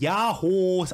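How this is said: It is said in a serious, firm way.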